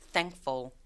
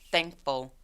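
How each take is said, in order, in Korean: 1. 중간의 K 소리는 빼고 발음합니다. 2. 중간의 K 소리는 빼고 발음합니다.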